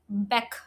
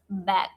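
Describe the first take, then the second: First: The word ends with a k sound. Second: The word ends with a g sound. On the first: The speaker calls it wrong. "there are people who pronounce back like back" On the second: The speaker calls it right. "We pronounce back like this"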